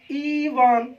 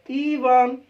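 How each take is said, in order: First: ईवन said as eevan, long ee, normal pace; plain demo. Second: ईवन repeated louder, long ee kept. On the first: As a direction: model word ईवन read out once, long ee. (ईवन, लंबी ई के साथ सामान्य उच्चारण) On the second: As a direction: say ईवन again with more force on ee. (ईवन ज़ोर से, लंबी ई खींचकर) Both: Shown as a demonstration. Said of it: "ऐसे इसको देखिए दोस्तों".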